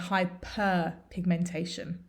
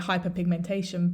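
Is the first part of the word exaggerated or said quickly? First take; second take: exaggerated; quickly. First: It is said with hyper clearly exaggerated. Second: It is said normally, with hyper not emphasized. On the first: It is very clear which word is meant. The speaker calls it right. "we exaggerate the pronunciation" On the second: It can be confusing which word is meant. The speaker calls it wrong. "In normal speech, you can just say"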